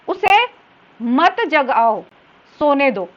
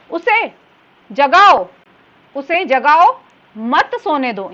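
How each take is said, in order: First: "मत जगाओ" slow and joined, then "सोने दो"; pause after जगाओ, before सोने. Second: "जगाओ" loud, stop, then "मत सोने दो"; pause after जगाओ. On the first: Teacher showing the second meaning, "मत" grouped with "जगाओ". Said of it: "फिर दूसरा वाक्य है". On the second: Teacher showing the first meaning, break after "जगाओ". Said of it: "वाक्य किस प्रकार से बनता है". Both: Shown as a demonstration.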